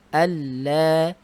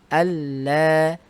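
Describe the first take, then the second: Both takes have the same delivery.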